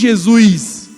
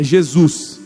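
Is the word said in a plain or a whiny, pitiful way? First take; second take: whiny; plain. First: The word is drawn out in a whiny, pitiful voice. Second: The word is said plainly in a normal voice. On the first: The speaker calls it wrong. "Tem uns que querem falar errado até para parecer mais piedoso" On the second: The speaker calls it right. "é Jesus"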